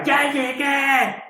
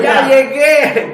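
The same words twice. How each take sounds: First: High, drawn-out mock call of the old pastor; imitated shout. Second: High, loud, drawn-out call with a laugh; joyful shout. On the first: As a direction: stretch it out like an old man announcing himself. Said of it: "tenía una voz que llegaba a los eventos y gritaba". (grito imitado, agudo y alargado) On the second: Retold or imitated. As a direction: announce your arrival in heaven at full voice. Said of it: "y gritando". (grito alegre, agudo y fuerte, alargado)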